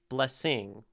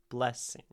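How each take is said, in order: First: The stress is on the second syllable. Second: The stress is on the first syllable. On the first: The speaker calls it wrong. "it doesn't sound right" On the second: The speaker calls it right. "Blessing is a trochee"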